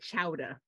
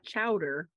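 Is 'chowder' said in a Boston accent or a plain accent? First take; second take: Boston; plain. First: It is said in a Boston accent. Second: It is said in the speaker's ordinary accent. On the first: "because that's how they say it" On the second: "not chowder"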